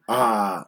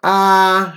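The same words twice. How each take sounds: First: The vowel is said on a low pitch. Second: The vowel is said on a high pitch. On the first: "low tone" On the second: "high tone"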